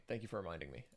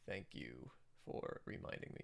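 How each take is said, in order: First: Said in the usual way. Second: Low whispered thank you; whispered aside. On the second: Real, not acted. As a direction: breathe it out under your voice, much lower.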